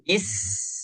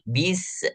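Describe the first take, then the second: First: The s is a smooth hiss without bounce. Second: The s ends with an extra bouncing sound. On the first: The speaker calls it right. "Jangan sampai keluar huruf yang baru" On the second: The speaker calls it wrong. "timbul suaranya ada pantulan"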